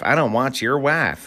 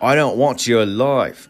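First: It is spoken with a Southern American accent. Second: It is spoken with an Australian-sounding accent. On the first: The speaker calls it right. "there we go. That's much better" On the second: The speaker calls it wrong. "Why did I sound Australian?"

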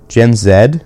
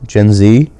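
First: The last letter is said as 'zed'. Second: The last letter is said as 'zee'. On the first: "Don't Canadians say Zed?" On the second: "Have I been saying Z this whole time?"

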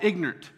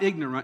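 First: It is said with a Southern US pronunciation. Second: It is said with a standard, non-Southern pronunciation. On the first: "There's a word in the South called ignorant" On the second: "That's how they pronounce it in other places"

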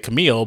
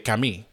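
First: It is said with an American accent. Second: It is said with a French accent.

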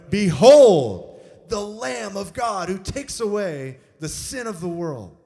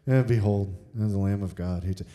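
First: It is proclaimed loudly as an exclamation. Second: It is said casually, without excitement.

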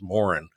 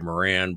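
First: The name is said in the Irish way. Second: The name is said in the American English way. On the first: "but in Ireland, everybody says" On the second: "in America is pronounced the English way"

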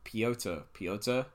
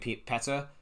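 First: The name is said the way Americans say it. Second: The name is said like the Czech name Petr. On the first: "because all the Americans say Piotr, I have to say it like that" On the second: "I keep saying Petr, like Petr Cech"

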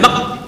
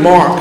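First: It is said in a mock Chinese accent. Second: It is said in an American accent.

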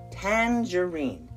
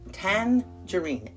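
The two takes are said the same way.

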